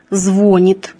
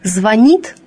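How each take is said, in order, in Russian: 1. Ударение на первом слоге. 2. Ударение на втором слоге.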